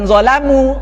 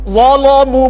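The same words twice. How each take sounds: First: The L is pronounced thin and light. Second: The L is pronounced thick and heavy. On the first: This is the usual recitation's reading. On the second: This is the other recitation's reading.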